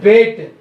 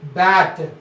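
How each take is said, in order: First: The vowel sounds like the vowel in 'bait'. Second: The vowel is a short plain 'a' sound. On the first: The speaker calls it wrong. "we should call not bait" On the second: The speaker calls it right. "but should be bat"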